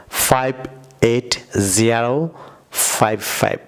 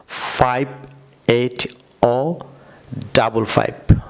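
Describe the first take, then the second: First: Slow American drill, জিরো not ও, ফাইভ ফাইভ; American number style. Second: Slow British drill, ও for zero, ডাবল ফাইভ; British number style. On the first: Teacher showing viewers the American way: জিরো and ফাইভ ফাইভ. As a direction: say ফাইভ এইট জিরো ফাইভ ফাইভ with "জিরো" and each ফাইভ said separately. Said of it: "American স্টাইলে বলতে চান". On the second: Teacher showing viewers the British way: ও and ডাবল ফাইভ. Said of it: "যদি আপনারা British প্রনাউন্সে বলেন". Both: Shown as a demonstration.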